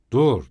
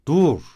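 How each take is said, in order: First: Sharp loud cry to stop him; shout. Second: Even louder furious cry; angrier shout. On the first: Razumihin stops Raskolnikov from leaving, loud shout. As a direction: bark it to halt a friend walking off. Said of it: "diye bağırdı". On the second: Razumihin, angrier still, stops him leaving, furious shout. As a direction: yell with anger boiling over. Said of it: "öfkesi bir kat daha artarak". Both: A narrator's reading.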